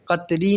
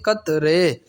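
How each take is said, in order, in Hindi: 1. इस शब्द का अंत 'ee' स्वर से होता है। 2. इस शब्द का अंत 'ay' स्वर से होता है। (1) "कतरी नहीं होता" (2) "बल्कि कतरे"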